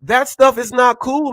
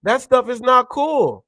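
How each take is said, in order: First: "stuff" hit hardest, "not cool" following; stress on stuff. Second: "not" punched, falling tune at the end; stress on not. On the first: Ranting to viewers, leaning on "stuff". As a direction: lean hard on "stuff". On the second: Repeating his point to viewers, stressing "not". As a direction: hit the word "not" and let it fall. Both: Real, not acted. Ranting about racist drivers.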